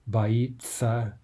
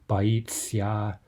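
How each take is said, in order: First: The ending is pronounced as a plain 'tsa'. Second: The ending is pronounced with a soft 'tsya'. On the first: The speaker calls it right. "a simplified form with tsa" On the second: The speaker calls it wrong. "we don't say what we're actually writing on the page"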